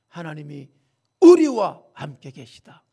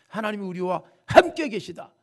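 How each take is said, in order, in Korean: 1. 강세는 '우리'에 있어요. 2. 강세는 '함께'에 있어요. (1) "뭘 강조했어요? 우리예요" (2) "대부분 다 함께. 맞습니다"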